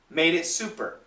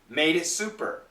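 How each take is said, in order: First: The words run together quickly with linked sounds. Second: The same.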